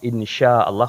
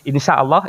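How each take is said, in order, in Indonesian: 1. Konsonan di tengah adalah bunyi sh. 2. Konsonan di tengah adalah bunyi s biasa. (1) "pakai sya" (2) "sak kecil sin gitu"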